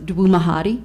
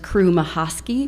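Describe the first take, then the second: First: Some consonants in the name are replaced. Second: All consonants in the name are said clearly. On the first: This is a child's early attempt at the name. The speaker calls it wrong. "as he pronounced it to me" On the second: This is the name as it really sounds. The speaker calls it right. "which is his actual name"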